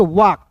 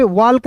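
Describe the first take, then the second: First: वॉक with a silent "l"; correct pronunciation. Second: वॉल्क with the "l" sounded; wrong pronunciation. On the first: Teacher giving students the right reading, वॉक without "l". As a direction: say वॉक as "wawk", no "l". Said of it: "इसे पढ़ेंगे वॉक". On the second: Teacher showing the wrong reading, वॉल्क with "l" sounded. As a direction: say वॉल्क, clearly pronouncing the "l". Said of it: "वॉल्क नहीं पढ़ेंगे". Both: Shown as a demonstration.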